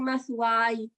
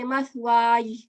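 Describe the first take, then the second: First: "mathwai" with the final ya left unclear; ya not sounded. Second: "mathwai" with an audible y at the end; ya clearly sounded. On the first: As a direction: let the closing y of "mathwai" go unstressed. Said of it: "So instead of saying mathwai". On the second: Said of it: "So you want to hear the ya". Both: Shown as a demonstration.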